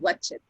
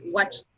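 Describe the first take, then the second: First: The ending is said as an extra syllable. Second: The ending is a single t sound. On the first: The speaker calls it wrong. "you said watch it" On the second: The speaker calls it right. "Is watched"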